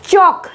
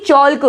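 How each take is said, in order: First: चॉक as chok, no l; silent l. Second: चॉल्क with l before k; wrong sounded l. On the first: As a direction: say चॉक straight from vowel to k. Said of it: "ना कि चॉल्क". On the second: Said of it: "ना कि". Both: Shown as a demonstration.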